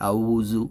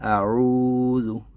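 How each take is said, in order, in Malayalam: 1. നടുവിലെ വ്യഞ്ജനം ഇംഗ്ലീഷിലെ മൂളുന്ന z ആണ്. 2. നടുവിലെ വ്യഞ്ജനം മൃദുവും ശബ്ദം കുറഞ്ഞതുമായ th പോലുള്ള ശബ്ദമാണ്. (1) "ഇത് മിക്ക ആളുകളും തെറ്റിക്കുന്നത് ഇത് ഇംഗ്ലീഷിലെ ആയിട്ട് ഔസു സു എന്ന് പറയും. ഔസു പറയരുത്" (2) "സോഫ്റ്റായിട്ട് ... ശബ്ദം കുറച്ചിട്ട് പറയാം"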